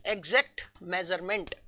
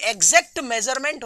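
First: exact measurement low and soft, one word at a time; measured dictation. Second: Said in the usual way. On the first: Shown as a demonstration. Teacher dictating the first point to students, measured and low. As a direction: say exact, pause, then measurement, quietly.

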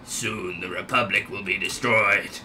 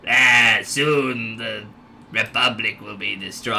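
First: Lower, softer evil overlord voice; Sidious. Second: Attempted lower evil overlord voice; Sidious. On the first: Pretend. Gamer retrying the Star Wars villain, low soft menace. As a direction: threaten quietly like a dark lord. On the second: Gamer attempting the Star Wars villain, lightly evil low voice. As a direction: try a low, menacing villain. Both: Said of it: "I'm trying to come with Sidious".

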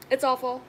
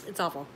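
First: "It's awful" pushed higher and louder, punch on "It's"; exaggerated complaint. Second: Said in the usual way. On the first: Shown as a demonstration. Complaining about the heat to viewers, exaggerated loud whine. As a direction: ham up the misery.

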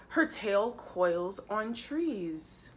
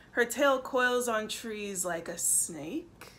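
First: Said in the usual way. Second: "like a snake" lifting into a question; puzzled question. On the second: A narrator's reading. Reader puzzles over Monkey's clue, "snake" rising questioningly.

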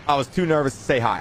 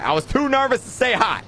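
First: Said in the usual way. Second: Repeated much higher for emphasis; plain but much higher. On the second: Shown as a demonstration. Streamer repeating to chat, much higher. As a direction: say it again, pitched well up.

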